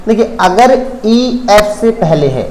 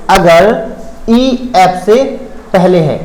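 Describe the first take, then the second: First: Said in the usual way. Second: अगर ईएफ़ से पहले है split into separate words, with a pause after each; slow emphatic repeat. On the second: Shown as a demonstration. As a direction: repeat it word by word, stressing अगर. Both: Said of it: "once more".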